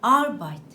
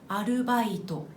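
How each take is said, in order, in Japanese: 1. 一つの音節が強く、他より長く発音されます。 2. すべての音節は同じ長さと強さです。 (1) "元のドイツ語は" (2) "このように日本語では全ての音の長さが均等なんです"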